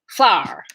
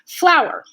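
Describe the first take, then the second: First: The word is squeezed into one syllable. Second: The word is said as two syllables. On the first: "she could make flour into one syllable" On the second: "So that's why it's two syllables"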